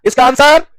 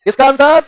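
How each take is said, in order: Both takes have the same delivery.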